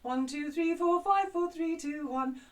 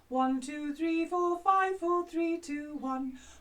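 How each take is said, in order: First: The counting is at a faster pace. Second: The counting is at a slower pace.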